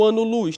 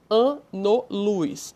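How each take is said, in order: First: Said in the usual way. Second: "ano-luz" very slowly, a-no-luz in three parts; syllable by syllable. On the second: Shown as a demonstration. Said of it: "divisão silábica".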